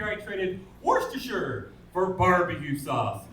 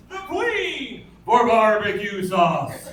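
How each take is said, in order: First: Said in the usual way. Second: Emphatic punchline. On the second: Acted. Repeated punchline, punched harder.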